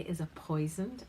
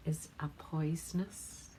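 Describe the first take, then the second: First: "poisoned" said firmly as the correction; corrected word. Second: "poisonous" said slowly as the slip; slow "is a poisonous" before catching the mistake; wrong word. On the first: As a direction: fix it to "poisoned" with a lift. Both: Shown as a demonstration. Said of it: "po-, sorry".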